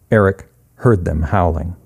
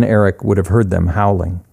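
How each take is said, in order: First: "Eric" set apart by a pause, then "heard them howling" stated low; pause after ERIC. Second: Said in the usual way. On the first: A narrator's reading. Narrator confirms the ghost dogs, pausing after "Eric" before "heard them howling".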